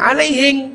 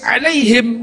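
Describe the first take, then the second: First: It ends with an ng sound, Bugis style. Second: It ends with a plain m sound.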